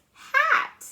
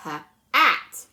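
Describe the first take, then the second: First: "hat" blended as one word, pitched high. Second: "h, at" split into separate sounds; sounded out. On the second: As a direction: say "h" then "at" as two separate parts. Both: Shown as a demonstration. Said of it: "let's blend that together".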